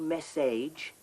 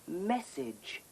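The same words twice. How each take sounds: First: The last syllable has a long 'age' vowel. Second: The last syllable has a short, reduced vowel. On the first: The speaker calls it wrong. "You don't say" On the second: The speaker calls it right. "you say"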